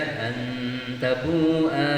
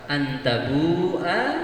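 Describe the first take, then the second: First: The vowel is drawn out long. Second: The vowel is said short. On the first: The speaker calls it wrong. "tidak boleh dibaca" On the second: The speaker calls it right. "a-nya dibaca pendek saja"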